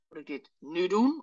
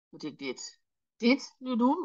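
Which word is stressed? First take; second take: nu; dit. First: The stress is on "nu". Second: The stress is on "dit".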